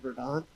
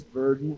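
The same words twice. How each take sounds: First: It is pronounced the French way. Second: It is pronounced the English way. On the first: This is how the speaker first assumed it was said. The speaker calls it wrong. "not verdant" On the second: This is how the brewery's own brewer says it. The speaker calls it right. "it was verdant with his English accent"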